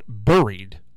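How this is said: The word has an unusual Alabama-style pronunciation. "it came out buried ... that was the Alabama coming out in her"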